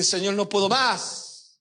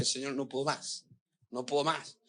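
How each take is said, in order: First: Slow, drawn-out retold plea, más falling long; crying plea. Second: Hushed, near-tearful retold prayer, much softer; tearful plea. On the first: Pastor reliving his tearful cry to God, slow and drawn-out. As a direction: stretch each word out like a worn-out cry. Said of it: "Y lloré y dije". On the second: Pastor retelling his breakdown prayer to God, hushed and near tears. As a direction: breathe the words softly as if crying to God. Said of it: "y me senté y empecé a llorar y dije".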